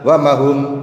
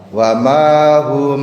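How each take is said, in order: First: The vowel after the m is cut short. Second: The vowel after the m is held long. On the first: The speaker calls it wrong. "Enggak boleh dibaca" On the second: The speaker calls it right. "Ini namanya matobi'i. Ada alif jatuh setelah fathah, tepatnya pada huruf mim"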